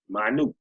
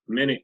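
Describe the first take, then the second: First: It is pronounced as the word meaning small. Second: It is pronounced as the unit of time. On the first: It means very small. "but it's pronounced different, means small" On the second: It refers to sixty seconds. "You can use that in time"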